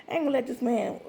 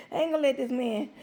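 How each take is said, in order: Both takes have the same delivery.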